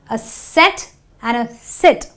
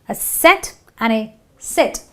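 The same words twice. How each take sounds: No difference in how they are said.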